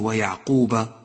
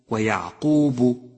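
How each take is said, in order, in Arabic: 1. الباء الأخيرة عليها حركة 'a'. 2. الباء الأخيرة عليها حركة 'u'.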